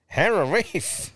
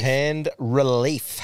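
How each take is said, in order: First: Slow, high mock masseuse; mimicked masseuse. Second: "Hand relief" slowly and distinctly; drawn-out wording. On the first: Host mimicking the masseuse's phrase, slow high voice. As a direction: draw it out high, rising. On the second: Shown as a demonstration. Host repeating the punchline to co-host, "Hand relief" said slowly. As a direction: sound out "Hand relief" at half pace.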